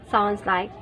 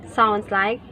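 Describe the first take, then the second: Both takes have the same delivery.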